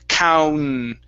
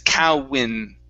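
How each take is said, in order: First: No extra vowel comes before the N. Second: An extra vowel comes before the N. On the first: The speaker calls it right. "we don't want an in sound. It's cown" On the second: The speaker calls it wrong. "what we don't want to say is cowin"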